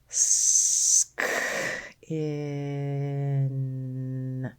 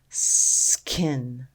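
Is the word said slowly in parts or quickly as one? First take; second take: slowly; quickly. First: The word is stretched slowly into separate sounds. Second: The word is said quickly as one unit. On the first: "Let's tap and stretch" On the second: "Say it fast"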